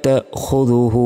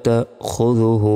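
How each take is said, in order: The two takes are said the same way.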